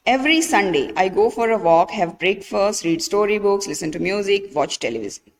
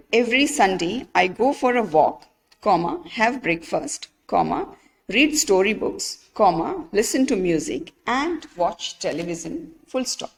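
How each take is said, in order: First: Rushed list with no pauses. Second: Careful list with a pause at each comma. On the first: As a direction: run together without comma pauses. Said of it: "There is no pause, right?". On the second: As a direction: clear pause after each item. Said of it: "We have to add the commas here". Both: Shown as a demonstration.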